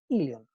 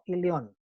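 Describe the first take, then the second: First: The stress is on the first syllable. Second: The stress is on a later syllable. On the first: The speaker calls it right. "el tilde va en la I" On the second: The speaker calls it wrong. "no ilion"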